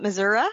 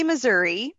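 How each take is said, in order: First: "Missouri" with a final "uh" in place of "ee"; Missouri ending in "uh". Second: "Missouri" finished on a clear "ee"; Missouri ending in "ee". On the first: Retold or imitated. Guest quoting family members, "Missouri" ending in "uh". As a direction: say "Missouri" as "muh-ZUR-uh". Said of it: "family members through the years". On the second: Shown as a demonstration. Guest giving her own way, "Missouri" ending in "ee". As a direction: say "Missouri" as "muh-ZUR-ee". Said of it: "I say Missouri".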